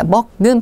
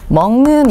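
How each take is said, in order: First: The first syllable ends in a k sound. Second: The first syllable ends in an ng sound. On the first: The speaker calls it wrong. "먹는 발음하지 않고" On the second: The speaker calls it right. "먹는 이렇게 발음을 하는 거죠"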